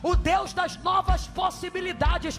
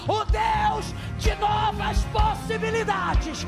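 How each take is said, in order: First: It is said casually, without much force. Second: It is said forcefully, with strong proclaiming emphasis. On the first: The speaker calls it wrong. "Se for falar de qualquer jeito, não fala" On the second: The speaker calls it right. "Só se for falar como profeta"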